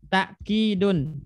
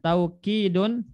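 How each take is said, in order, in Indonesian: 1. Suku kata pertama diakhiri dengan hamzah. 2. Suku kata pertama meluncur dengan bunyi w. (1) "dengan takkidun hamzah" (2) "dengan wawu"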